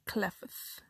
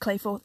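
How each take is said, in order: First: The name is said as 'Clefth'. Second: The name is said as 'Clayforth'. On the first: The speaker calls it wrong. "I was pronouncing it Clefth because it looked like it was spelled that way" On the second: The speaker calls it right. "apparently it's Clayforth"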